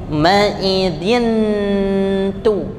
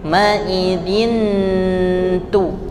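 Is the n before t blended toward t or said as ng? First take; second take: blended; blended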